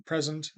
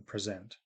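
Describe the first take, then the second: First: PRE-sent, noun stress; stress on first syllable of present. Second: Pre-SENT, verb stress; stress on second syllable of present. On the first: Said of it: "high tick mark before the P". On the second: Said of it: "and before the Z". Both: Shown as a demonstration.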